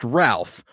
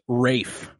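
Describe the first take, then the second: First: The name has a short 'a' and an 'l' sound. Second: The name has a long 'ay' and no 'l' sound. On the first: The speaker calls it wrong. "You'd think it's just Ralph" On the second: The speaker calls it right. "It's Rafe"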